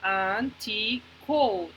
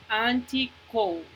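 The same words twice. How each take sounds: First: "anti-code" drawn out slowly in three separate beats; slow teacher's breakdown of "anti-code"; syllable by syllable. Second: Said in the usual way. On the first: Shown as a demonstration. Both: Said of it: "escuchen cuántas sílabas".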